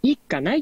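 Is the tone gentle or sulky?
sulky. It sounds like a sulking, whining child. A child is refusing to go. The speaker calls it wrong. "子供がダダこねてるみたいになって"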